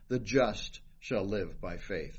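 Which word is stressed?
just. The stress is on "just".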